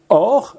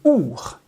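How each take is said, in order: First: The vowel sounds like 'oh'. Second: The vowel sounds like 'oo'. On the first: It means the uncreated, original light. "Il y a or, lumière incréée" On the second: It means a passing, transient light. "l'autre façon de prononcer le mot lumière, c'est our"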